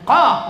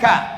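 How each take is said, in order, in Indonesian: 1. Konsonan ini dibuat dalam di tenggorokan. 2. Konsonan ini bunyi k biasa. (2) "bukan ka"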